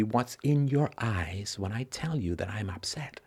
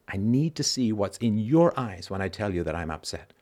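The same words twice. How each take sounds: First: Whispered. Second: Said in the usual way. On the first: Shown as a demonstration. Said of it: "whispered then repeated plainly". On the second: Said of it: "same line said plainly".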